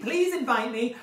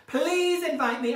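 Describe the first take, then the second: First: Said in the usual way. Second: Drawn-out pleading. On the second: Acted. Begging to join the online panto.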